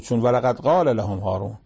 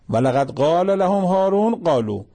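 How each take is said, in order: First: Said in the usual way. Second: Chanted Quranic emphasis, stepping up in pitch; raised emphatic recitation. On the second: Shown as a demonstration. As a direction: lift the verse higher and chant it out. Verse repeated with emphasis.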